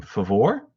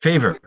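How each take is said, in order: First: "Favor" said as fuh-VOR, stress on the second syllable; "Favor" with a weak first syllable and a stressed VOR; first try at the name. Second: "Favor" said as FAY-ver, stress on the first syllable; corrected name. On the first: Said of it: "tell me if I mispronounce your name". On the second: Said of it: "it's Favor". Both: Real, not acted.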